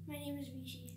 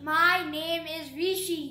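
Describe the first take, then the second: First: It is said at normal pace and volume. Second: It is said slowly and loudly.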